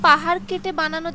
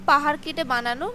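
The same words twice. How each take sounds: The two takes are said the same way.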